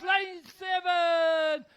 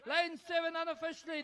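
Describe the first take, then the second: First: Lane seven bellowed slow and high; shouted. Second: Said in the usual way. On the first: Real, not acted. Shouting third place at finish.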